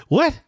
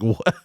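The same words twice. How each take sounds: First: "What?" jumping much higher, rising sharply; exaggerated incredulous "What?" pitched high; mock surprised "What?". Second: Said in the usual way. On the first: V's puzzled look imitated.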